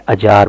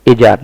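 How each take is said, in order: First: "अजार" said uh-jar; short uh opening on "अजार"; initial short "uh". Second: "ए जार" said wrongly as ay-jar; full ay opening on "ए जार"; initial "ay". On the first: Teacher correcting the mistake, uh-jar pronunciation. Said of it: "अजार बोलेंगे". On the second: Teacher showing what not to say, ay-jar pronunciation. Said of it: "ए जार नहीं बोलेंगे". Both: Shown as a demonstration.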